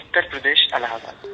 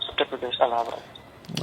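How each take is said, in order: First: It is said loudly and clearly. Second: It is mumbled quietly.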